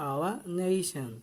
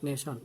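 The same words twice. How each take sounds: First: Slow "Our nation" with a long NAY-shan; deliberate model "Our nation"; correct pronunciation. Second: Softer "nation" as neh-shon; wrong pronunciation. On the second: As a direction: toss off "nation" with short e and -shon. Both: Shown as a demonstration. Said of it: "not nation".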